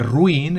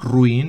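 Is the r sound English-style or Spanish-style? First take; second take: Spanish; English. First: The r is pronounced like a Spanish r. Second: The r is pronounced like an English r. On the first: The speaker calls it wrong. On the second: The speaker calls it right.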